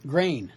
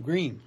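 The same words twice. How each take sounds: First: "grain", Green said with an Australian-style "ay" vowel. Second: Said in the usual way. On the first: Shown as a demonstration. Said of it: "Like in Australia, they say". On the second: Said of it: "grain instead of green".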